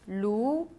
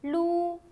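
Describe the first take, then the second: First: The pitch rises from middle to high. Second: The pitch stays high and level.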